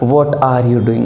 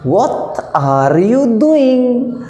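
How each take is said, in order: First: It is said in a plain Indian English accent. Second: It is said in an imitated foreign English accent. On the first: "ऐसे बोलेंगे ना ना ना" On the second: "उनका बोलने का लहजा अलग है जनाब"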